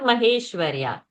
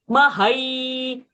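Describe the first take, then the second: First: The vowel after 'Mah' is a plain 'e'. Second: The vowel after 'Mah' is an 'ai' diphthong. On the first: The speaker calls it wrong. "So not Maheshwarya" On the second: The speaker calls it right. "Ai ki matra is there. Hai sound has to happen over there"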